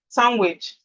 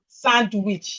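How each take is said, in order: First: The D in the middle is silent. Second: The D in the middle is pronounced. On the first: The speaker calls it right. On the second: The speaker calls it wrong.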